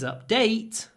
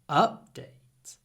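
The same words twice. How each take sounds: First: The stress is on the second syllable. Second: The stress is on the first syllable. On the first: It is used as a verb. "But when it's a verb, the stress is on the second syllable" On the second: It is used as a noun. "When it's a noun, the stress is on the first syllable"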